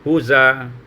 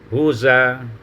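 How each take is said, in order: Both takes have the same delivery.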